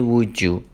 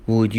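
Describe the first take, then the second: First: "would you" blended into "wood-joo"; "would you" with a j in the middle; linked sounds. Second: Said in the usual way. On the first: Shown as a demonstration.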